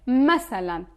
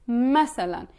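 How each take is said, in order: Both takes have the same delivery.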